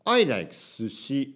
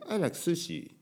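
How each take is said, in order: First: Slow English with "sushi" in Japanese intonation. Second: "sushi" flowing with English intonation. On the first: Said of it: "日本語のイントネーションで入れると不自然". (日本語のイントネーションの英語) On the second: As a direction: say "sushi" as part of a fluent English sentence. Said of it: "英語のイントネーションがある". (「sushi」を英語のイントネーションで) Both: Shown as a demonstration.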